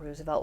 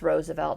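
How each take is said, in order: First: The first syllable sounds like 'roos'. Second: The first syllable sounds like 'rose'. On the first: The speaker calls it wrong. "not Roosevelt" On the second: The speaker calls it right. "it's Roosevelt"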